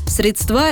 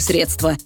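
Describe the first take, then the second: First: The stress is on the last syllable. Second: The stress is on the first syllable. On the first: The speaker calls it wrong. "это неграмотно" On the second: The speaker calls it right. "С ударением на «е»"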